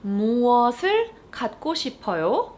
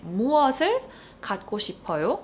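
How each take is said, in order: First: Fast Korean question with a rise. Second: Fast native-speed Korean question. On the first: Teacher modeling the question quickly. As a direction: ask it quickly. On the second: Teacher repeating the model question quickly. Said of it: "This is how you would ask it". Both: Shown as a demonstration.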